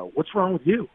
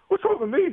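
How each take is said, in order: First: Said in the usual way. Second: Much higher, indignant disbelief; mock-outraged echo of his wife; incredulous echo. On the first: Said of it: "my wife says". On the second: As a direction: toss the question back high and stunned. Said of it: "I'm like".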